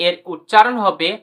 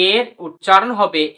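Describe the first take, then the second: No difference in how they are said.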